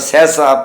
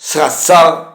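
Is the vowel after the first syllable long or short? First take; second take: short; long. First: No long vowel follows the first syllable. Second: A long, pressed 'a' vowel follows the first syllable. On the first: The speaker calls it right. "ਜਿਸ ਤਰ੍ਹਾਂ ਇਹਨਾਂ ਦੇ ਅਸੀਂ ਉਚਾਰਨ ਜਿਹੜੇ ਹਾਂ" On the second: The speaker calls it wrong. "ਇਸ ਤਰ੍ਹਾਂ ਦਬਾ ਕੇ ਅਧਿਕ ਲਗਾ ਕੇ ਨਹੀਂ ਕਰਦੇ"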